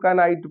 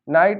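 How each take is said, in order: First: The word begins with a k sound. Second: The word begins with an n sound. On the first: The speaker calls it wrong. "अगर इसको का नाइट पढ़ दो" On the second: The speaker calls it right. "यहाँ हम के नहीं पढ़ेंगे"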